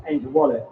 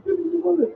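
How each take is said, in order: First: Said in the usual way. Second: Put-on much higher, childlike quote of "Angel Wallet"; a lightly mocking little-girl voice on "Angel Wallet"; imitating a child. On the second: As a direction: pitch "Angel Wallet" way up like a kid. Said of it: "She's like".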